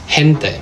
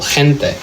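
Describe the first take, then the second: First: The g is a soft sound like English h. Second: The g is a harsh, phlegmy throat sound.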